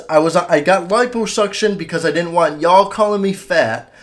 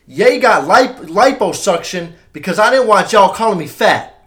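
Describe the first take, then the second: First: Lightly imitated celebrity rant, slightly higher; toned-down impression, quoting word for word; a hint of the rapper's raised voice. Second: Hammed-up imitation, higher and louder. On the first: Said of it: "that's word for word what he says". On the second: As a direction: belt it out as an over-the-top rapper impression. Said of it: "I'm gonna do my impression of him".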